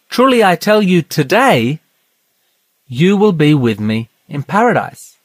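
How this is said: There is a pause after the word today.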